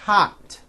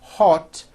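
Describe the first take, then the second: First: The vowel is an open 'ah' sound. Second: The vowel is an 'oh' sound. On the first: The speaker calls it right. "it's ah" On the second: The speaker calls it wrong. "it's not hot"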